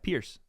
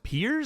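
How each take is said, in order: First: The name ends with a hissing s sound. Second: The name ends without a hissing s sound. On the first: The speaker calls it wrong. "You say it with an S like that" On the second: The speaker calls it right. "Oh, it's Piers. Like we, you and I are peers"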